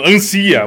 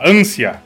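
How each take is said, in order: First: The stress is on the second syllable. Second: The stress is on the first syllable. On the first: The speaker calls it wrong. "E aí ele tá lendo, ansia, um bagulho assim" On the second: The speaker calls it right. "mas é assim, sei lá, ânsia"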